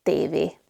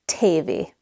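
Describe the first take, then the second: First: "T V" as tay-vay, unbreathed t; no puff on "T V"; soft Hungarian T. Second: "T V" as tay-vay with puffed t; wrong breathy T. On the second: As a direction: aspirate the t in "T V". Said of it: "it's not T V". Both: Shown as a demonstration.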